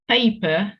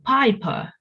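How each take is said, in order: First: The first vowel sounds like 'ay'. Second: The first vowel sounds like 'eye'.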